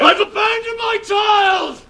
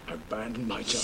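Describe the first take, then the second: First: It is said loudly. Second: It is said more quietly.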